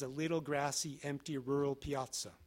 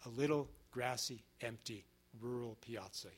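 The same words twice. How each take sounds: First: The phrase is read fast with little pausing. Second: The phrase is read slowly with pauses. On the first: The speaker calls it wrong. "I read that too quickly" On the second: The speaker calls it right. "He stretches you out with those commas"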